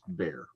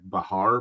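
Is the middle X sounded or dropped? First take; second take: dropped; sounded. First: The middle sound is dropped into one syllable. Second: A breathy h sound links two syllables. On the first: This is how locals in Texas say it. "but it's just bear" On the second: This is the original Spanish pronunciation. "it should be like Bahar"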